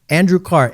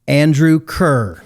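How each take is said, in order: First: The surname rhymes with car. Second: The surname rhymes with fur. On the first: The speaker calls it right. "it's the old Scottish pronunciation" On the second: The speaker calls it wrong. "I have mispronounced my wonderful guest's name"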